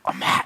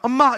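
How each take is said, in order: First: It is said in a weak voice. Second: It is said in a strong voice.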